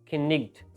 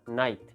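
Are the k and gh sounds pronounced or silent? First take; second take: pronounced; silent. First: The k and gh sounds are pronounced aloud. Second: The k and gh sounds are left silent. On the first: This is how the word was said in old times. "खिन्निग्ड को बोलने के लिए मेरा मुंह ही तब्दील हुआ जा रहा है" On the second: This is how the word is said today. "नाइट को मैं इजीली प्रोनाउंस कर पा रहा हूँ"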